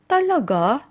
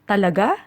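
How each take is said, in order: First: It sounds like a doubtful, unsure question. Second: It sounds like a curious, checking question. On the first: The speaker doubts what was said. "when we are in doubt, we usually say it this way" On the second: The speaker wants to confirm something. "used as a question to confirm something, should be said this way"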